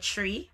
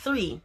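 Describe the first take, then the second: First: It starts with a plain 't', no 'h'. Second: It starts with a 'th' sound. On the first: The speaker calls it wrong. "we just drop off the H" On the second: The speaker calls it right. "me understand it is 3"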